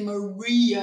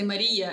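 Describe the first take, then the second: First: The name is said the American way. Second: The name is said the Ukrainian way.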